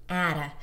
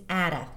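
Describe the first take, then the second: The two takes are said the same way.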